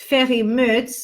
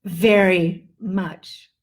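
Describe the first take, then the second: First: Very said as ferry with an F; F instead of V. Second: Slow Very with a long buzzed V; buzzing V. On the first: Teacher shows the wrong unvoiced V. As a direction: say Very without vibration, like fery. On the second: Teacher shows the correct vibrated V. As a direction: vibrate the V in Very slowly. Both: Shown as a demonstration. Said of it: "That's what it's supposed to be".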